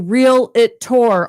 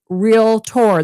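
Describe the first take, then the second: First: It has an extra middle syllable, three in all. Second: It has no middle syllable, two in all. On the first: The speaker calls it wrong. "people say real it tour all the time" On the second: The speaker calls it right. "it's real tour. There's no I"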